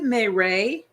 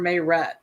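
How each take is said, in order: First: The name is said in a French style. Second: The name is said in a plain style. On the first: "is it Mayray? Like, is that French?" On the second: "I've been calling her Mayret"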